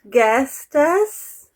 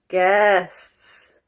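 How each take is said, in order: First: It has an extra vowel syllable before the s. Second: It is one syllable with no added vowel. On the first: The speaker calls it wrong. "Not guestes" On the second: The speaker calls it right.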